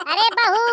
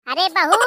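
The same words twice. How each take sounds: First: A loud call pitched much higher; mother-in-law calls the daughter-in-law again, higher and loud; louder, higher call. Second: A loud call to the daughter-in-law; mother-in-law calls out to the daughter-in-law, loud. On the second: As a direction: call across the house, loud. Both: Acted. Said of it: "गला फाड़ फाड़ के चिल्ला रही हूँ".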